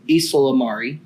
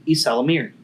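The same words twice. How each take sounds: First: Ysalamiri with a "mar" sound near the end; Ysalamiri, its "mir" turned into "mar" as in "car"; alternative pronunciation. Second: Ysalamiri with a "meer" sound near the end; Ysalamiri, rhyming its "mir" with "near"; first pronunciation variant. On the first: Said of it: "however you want to pronounce it". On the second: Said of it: "the two most prominent pron". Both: Shown as a demonstration.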